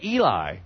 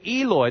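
First: Eli ending in an "eye" sound; Eli as misheard. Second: Eloi ending in an "oy" sound. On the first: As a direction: say Eli with "lie" in place of "loy". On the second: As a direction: say Eloi with a clear "loy" at the end. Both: Shown as a demonstration. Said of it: "They think he said".

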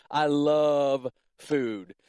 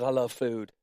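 First: "love" stretched long and slow, then "food"; drawn-out emphasis. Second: Said in the usual way. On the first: Shown as a demonstration. Preacher confessing his love of food, slowly and emphatically. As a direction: savour each word, dragging out "love".

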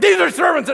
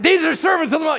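First: Very high, loud cry; mock possessed girl yell. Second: Very high, loud repeated cry; hammed-up possessed girl yell. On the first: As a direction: shriek it out again. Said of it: "She's like". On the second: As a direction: holler it again, higher. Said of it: "she keeps doing it".

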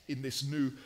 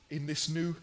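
The two takes are said the same way.

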